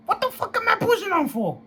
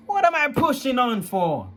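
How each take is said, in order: First: Much higher, exploding angry shout; furious. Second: Raised, louder bitter question; angry. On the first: Young man raging about being told to endure, much higher. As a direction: let the anger break loose. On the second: Young man venting at family, loud and higher. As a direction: demand it angrily, voice climbing. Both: Real, not acted. Angry outburst at grandma's advice.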